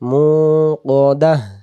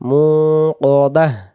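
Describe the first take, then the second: The two takes are said the same way.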